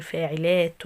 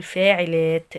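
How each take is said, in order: First: Said in the usual way. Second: فاعلات said slowly and louder, ending in a silent t; with the sukun. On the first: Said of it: "بدل ما كنت بقول". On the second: Shown as a demonstration. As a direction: stretch فاعلات out and stop hard on a still t. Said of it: "هقول فاعلات". (فاعلات ببطء مع تسكين التاء)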